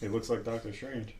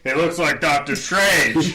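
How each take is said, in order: First: It is said quietly. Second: It is said loudly.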